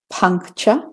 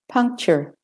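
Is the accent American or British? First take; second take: British; American. First: It is spoken in a British accent. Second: It is spoken in an American accent.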